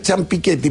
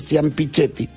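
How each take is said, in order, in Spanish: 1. El nombre conserva su pronunciación original, no española. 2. El nombre se pronuncia con sonidos adaptados al español. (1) "la pronunciación correcta es Ciampichetti" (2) "se ha castellanizado, se ha argentinizado y se dice Ciampichetti"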